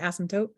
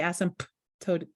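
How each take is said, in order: First: The P sound is left silent in the middle. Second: The P sound is pronounced in the middle. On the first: The speaker calls it right. "You just say asymptote" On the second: The speaker calls it wrong. "You don't say asymptote"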